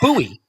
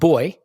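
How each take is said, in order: First: It is said as two syllables, boo-ee, American style. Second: It is said as one syllable, like boy.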